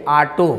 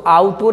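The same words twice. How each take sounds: First: ऑटो said "AA-to", open first vowel; plain open "aa" opening ऑटो; corrected pronunciation. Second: ऑटो said "AAU-to", with a U glide; wrong pronunciation. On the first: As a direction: say ऑटो as "aa-to", no U glide. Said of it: "अब उसको ऑटो नहीं कहेंगे". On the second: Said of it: "ऑटो नहीं कहेंगे". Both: Shown as a demonstration.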